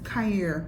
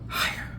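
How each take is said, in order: First: The first sound is a plain hard k. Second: The first sound is rasped in the throat.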